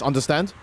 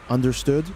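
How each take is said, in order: First: It is said with lively emotion. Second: It is said flat, like a machine.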